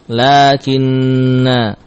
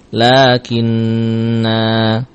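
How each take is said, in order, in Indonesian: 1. Vokal akhirnya dipotong pendek. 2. Vokal akhirnya dibaca panjang. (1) "Tatkala wasal, maka alif ini tidak kita baca" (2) "Kalau kita membaca kalimat ini dalam keadaan waqaf, maka alifnya mawjud"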